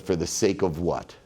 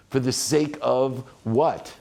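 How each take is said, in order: First: Said in the usual way. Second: Slow, deliberate repeat of the question; slow emphatic question. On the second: Shown as a demonstration. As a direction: draw out For the sake of what? slowly, weight on what. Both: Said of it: "that's what got me there".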